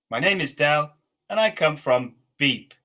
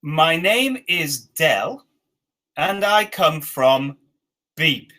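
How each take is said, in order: First: Said in the usual way. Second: Very slow, word by word; slow dictation. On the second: Shown as a demonstration. Teacher dictating the first sentence slowly. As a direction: space each word out for the learners. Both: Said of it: "the first sentence at the top here is".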